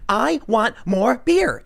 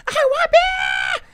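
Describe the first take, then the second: First: Slow, higher, drawn-out demanding whine; whiny Becky. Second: Very high, slow, shrieking demand; tantrum shout. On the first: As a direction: stretch it out like a spoiled girl. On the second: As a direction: scream it like a spoiled toddler. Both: Retold or imitated. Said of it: "she's going".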